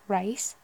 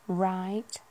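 First: It is said in a Liverpool accent. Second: It is said in a Yorkshire accent. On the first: "the northwest, like, Liverpoolian" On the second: "a kind of Yorkshire right ... the eyes kind of dragged out a bit more"

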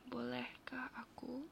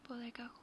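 First: It is said at a slower pace. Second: It is said at a normal, quicker pace.

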